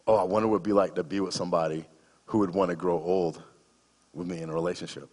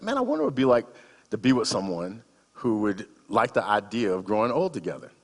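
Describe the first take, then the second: First: Said in the usual way. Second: Wistful musing. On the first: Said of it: "the answer to that question". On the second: Retold or imitated. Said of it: "I thought to myself this question".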